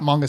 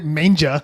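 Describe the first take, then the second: First: The middle consonant is a hard G sound. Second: The middle consonant is a soft J sound. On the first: The speaker calls it right. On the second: The speaker calls it wrong.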